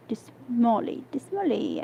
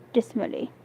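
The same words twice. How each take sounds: First: Breathy, gloomy whisper of the word; dismally whispered. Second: Said in the usual way. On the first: Shown as a demonstration. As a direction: sigh it out dismally.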